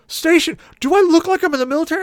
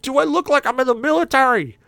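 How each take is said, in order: First: Very high, loud, fast indignation; incredulous shriek. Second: Much higher, louder, stressing like; indignant question. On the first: Long-haired passenger shrieks at cabbie, incredulous. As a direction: fire it off in outrage. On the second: Passenger shows cabbie his ponytail, indignant high demand. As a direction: hold up your ponytail and demand it. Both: Retold or imitated.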